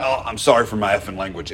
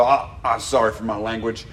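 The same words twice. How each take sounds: First: Lower, fast, gruff apology with a slipped cuss; a hint of a rough man cussing mid-apology; quick gruff apology with a slip; rough old man cussing. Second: Lower, gruff apology; a hint of a rough homeless man; sheepish gruff apology, lightly voiced; rough old man apologizing. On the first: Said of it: "it always came out". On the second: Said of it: "he'd realize he was cussing and go".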